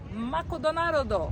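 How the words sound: It is said with a Japanese pronunciation.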